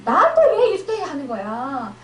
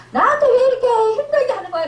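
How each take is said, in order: First: Mild resentful complaint. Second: Higher, louder, fast, with a half-laughing cry; whiny resentful complaint. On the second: Believer blaming the other person, fast high whining complaint. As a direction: whine it out, half laughing, half crying. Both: Acted. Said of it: "이러면서 상대방을 원망했다면".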